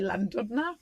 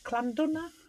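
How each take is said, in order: First: The name begins with a plain L sound. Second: The name begins with a harsher, k-like sound. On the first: The speaker calls it wrong. "I used to say Llandudno" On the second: The speaker calls it right. "double L is pronounced with a, a C"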